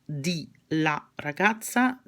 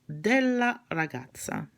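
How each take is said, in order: First: Two separate short words come before the noun. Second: One merged word comes before the noun. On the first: The speaker calls it wrong. "Nobody says di la ragazza" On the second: The speaker calls it right. "di and la merge and they become della"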